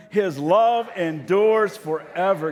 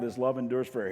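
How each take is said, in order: First: Loud, high, very slow full-voice refrain; shouted chorus. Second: Said in the usual way. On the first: Shown as a demonstration. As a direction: shout it out with the whole congregation. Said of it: "kinda shout out the chorus". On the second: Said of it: "You come back with".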